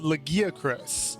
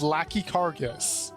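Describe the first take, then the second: First: The name is said in its usual form. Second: The name is said as 'Lackey Cargus'. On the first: The speaker calls it right. "called the Legiacris" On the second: The speaker calls it wrong. "I read that as Lackey Cargus"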